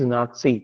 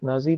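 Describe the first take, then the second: First: The middle consonant is a 'ts' sound. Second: The middle consonant is a 'z' sound. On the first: The speaker calls it right. "इसको pronunciation है इसका नाथसी" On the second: The speaker calls it wrong. "ये pronunciation गलत है"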